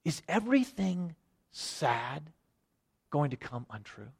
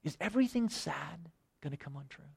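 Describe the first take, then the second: First: Disturbed Sam. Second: Much softer, almost breathed, lightly voiced hobbit; hushed disturbed Sam. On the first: Acted. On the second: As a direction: repeat it near-silent, lost in the question. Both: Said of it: "kinda disturbed a little bit".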